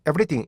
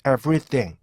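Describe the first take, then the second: First: Everything with a stretched first syllable, Konglish style; mock the bad everything; wrong everything. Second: Everything said with even syllables, lips rounded; careful teacher model of everything; correct everything. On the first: Teacher shows students the mistake, exaggerated Konglish. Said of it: "이렇게 하시면 안 돼요". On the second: Teacher shows students the right way, clear and even. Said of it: "이렇게 발음하셔야 되는데". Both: Shown as a demonstration.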